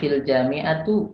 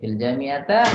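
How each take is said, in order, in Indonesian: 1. Kata terakhir diakhiri dengan vokal u. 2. Kata terakhir diakhiri dengan vokal a. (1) "enggak mungkin" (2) "enggak mungkin"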